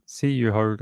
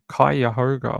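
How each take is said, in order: First: The 'u' after the first consonant is clearly pronounced. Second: The 'u' after the first consonant is silent. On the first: The speaker calls it wrong. "not Cuyahoga or whatever this says" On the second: The speaker calls it right. "they pronounce it Cuyahoga like that"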